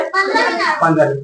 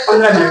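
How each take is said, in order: First: पन्द्रह minute stretched slow and high; slow, drawn out. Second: Said in the usual way. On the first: Shown as a demonstration. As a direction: draw out पन्द्रह minute slowly for the class. (धीरे खींचकर पन्द्रह minute) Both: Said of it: "कितना बाकी है?".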